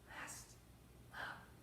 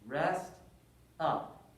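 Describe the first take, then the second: First: It is said at normal, softer volume. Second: It is said noticeably louder.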